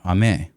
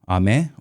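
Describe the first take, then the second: First: The pitch goes down across the word. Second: The pitch goes up across the word. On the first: "or down" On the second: "whether you go up"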